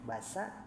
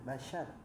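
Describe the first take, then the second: First: The middle consonant is a plain s sound. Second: The middle consonant is an sh sound. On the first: The speaker calls it wrong. "tadi ada shin, nah tapi udah diulang ya teh tadi teh basa" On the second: The speaker calls it right. "nah dibaca, nah basyar, nah gitu ya"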